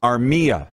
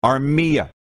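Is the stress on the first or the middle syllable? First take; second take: middle; middle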